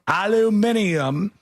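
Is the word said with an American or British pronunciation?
British. It is said the British way, five syllables.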